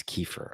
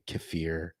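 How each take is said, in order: First: Kefir said KEE-fer; first-syllable stress. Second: Kaffir said kuh-FEER; second-syllable stress. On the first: Host giving his guess, kefir as KEE-fer. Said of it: "I think it's kefir". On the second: Host rejecting the other way, kaffir as kuh-FEER. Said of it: "I think if you say kaffir". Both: Shown as a demonstration.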